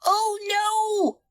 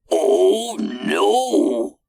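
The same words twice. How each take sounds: First: Very high, squeaky cry; high-pitched alarm; dismayed monkey. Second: Loud, high, drawn-out cry; loud alarmed exclamation; dismayed captain. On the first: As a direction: realise your mistake in a high voice. Monkey realises spanner is missing. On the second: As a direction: cry out as disaster strikes. Captain dismayed as engine stops. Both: A narrator's reading.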